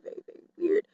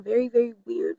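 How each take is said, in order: First: Hushed whisper repeat. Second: Said in the usual way. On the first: Shown as a demonstration. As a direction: whisper it under your breath.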